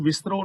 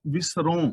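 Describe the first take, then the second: First: ਵਿਸਰੋ ending in a plain oral "o"; misread ਵਿਸਰੋ. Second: ਵਿਸਰੋ with a nasalised final vowel, first person; corrected ਵਿਸਰੋ. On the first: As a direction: say ਵਿਸਰੋ with no nasal on the last vowel. (ਵਿਸਰੋ ਬਿਨਾਂ ਬਿੰਦੀ, ਗ਼ਲਤ ਪਾਠ) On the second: (ਵਿਸਰੋ ਦੇ ਅੰਤ ਵਿੱਚ ਨਾਸਕੀ ਆਵਾਜ਼) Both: Shown as a demonstration. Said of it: "ਇਹਨੂੰ ਵਿਸਰੋ ਨਹੀਂ ਪੜ੍ਹਨਾ".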